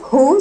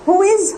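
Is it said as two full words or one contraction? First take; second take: contraction; two words. First: The two words are merged into one syllable. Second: The two words are said fully and separately.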